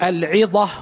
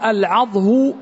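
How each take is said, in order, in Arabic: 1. للكلمة وزن 'ʿida'، والحركة i. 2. للكلمة وزن 'wajh'، والحركة a. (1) "على وزن العدة" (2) "على وزن الوجه"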